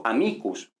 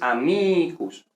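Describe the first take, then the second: First: Said in the usual way. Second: "amicus" alargando la i de "mi"; sostén la i tónica: "amiicus"; i larga. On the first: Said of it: "¿Por qué sabemos que es amicus?". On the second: Shown as a demonstration. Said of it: "es larga". ("amicus" con la segunda sílaba larga y marcada)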